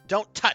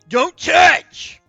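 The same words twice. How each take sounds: First: It is said in a plain, natural voice. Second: It is said in a put-on cartoon character voice.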